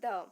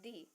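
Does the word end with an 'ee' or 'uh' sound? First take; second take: uh; ee. First: The word ends with a short 'uh' sound. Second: The word ends with a long 'ee' sound. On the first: The next word starts with a consonant sound. "If the words after the start with consonant sound means except A E I O U, then we say the" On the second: The next word starts with a vowel sound. "if the word after the start with vowel sound means A E I O U, then we say the"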